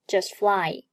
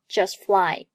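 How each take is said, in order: The two takes are said the same way.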